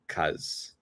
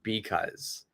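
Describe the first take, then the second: First: The word is shortened to a single syllable. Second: The word is said in full, with both syllables. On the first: "I always use this pronunciation, cuz" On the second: "I'm not saying because"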